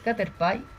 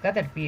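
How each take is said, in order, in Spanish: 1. El nombre se dice con pronunciación inglesa. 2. El nombre se dice con pronunciación española. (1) "en inglés me parece que es Caterpie" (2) "Nosotros decimos Caterpie de siempre"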